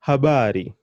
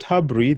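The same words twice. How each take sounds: First: Habari in three syllables, middle BA held and emphasised; stress on ba. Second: Habri squashed into two syllables, losing the stressed ba; wrong pronunciation habri. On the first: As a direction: lean on the ba in habari, then fall. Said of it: "the emphasis is going on the ba". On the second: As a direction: swallow the middle vowel: habri. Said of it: "there's nothing like habri in Kiswahili". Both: Shown as a demonstration.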